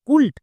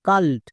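First: The vowel sounds like 'oo'. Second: The vowel sounds like 'ah'. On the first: The speaker calls it wrong. "কুল্ট নাকি কাল্ট, কোনটা?" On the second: The speaker calls it right. "ইউ এর জন্য আকার sound হবে"

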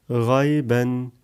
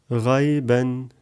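No difference in how they are said.

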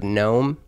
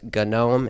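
First: The initial G is silent before the N. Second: The initial G is pronounced before the N. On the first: "instead of GNOME" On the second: "that's why some people pronounce it as GNOME"

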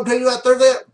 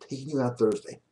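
First: It is said fast in a breezy voice. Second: It is said slowly in a firm voice. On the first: It sounds like a loose, offhand suggestion. The speaker calls it wrong. "Not like, yo" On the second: It sounds like a confident command. The speaker calls it right. "Say it in a slow voice. Almost like a command"

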